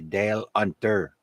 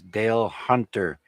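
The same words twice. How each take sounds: First: The h at the start of Hunter is dropped. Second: The h at the start of Hunter is pronounced.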